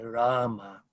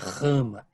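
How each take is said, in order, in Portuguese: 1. O r é um som suave e leve. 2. O r é um som duro e áspero. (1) "o som do R é sempre brando" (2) "Não é rama"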